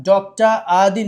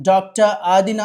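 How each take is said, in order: Both takes have the same delivery.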